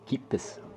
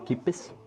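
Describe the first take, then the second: Both takes have the same delivery.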